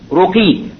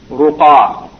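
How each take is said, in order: First: The word ends with an 'ee' vowel. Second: The word ends with an 'ah' vowel. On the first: The speaker calls it wrong. "they wrote the name as Ruqi" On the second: The speaker calls it right. "when it should be Ruqa"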